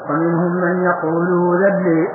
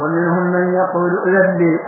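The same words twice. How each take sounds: First: A lengthened vowel replaces the glottal stop before 'dhan'. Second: A clear glottal stop is pronounced before 'dhan'. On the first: "بإبدال الهمزة وراء المادة" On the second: "بهمزة محققة"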